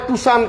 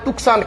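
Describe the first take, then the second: First: It is said too-san, with no k sound. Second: It is said took-san, with a k sound. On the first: The speaker calls it right. "ওটার নাম হচ্ছে টুসান" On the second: The speaker calls it wrong. "কেউ বলে টুকসান"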